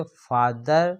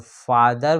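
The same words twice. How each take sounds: First: father with a stop after फा, then दर; split into syllables. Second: Said in the usual way. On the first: Shown as a demonstration. Teacher shows students where father breaks, split into two syllables. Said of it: "तो फा पे रुकते हैं, फिर दर बोलाता है". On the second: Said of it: "तो फा पे रुकते हैं".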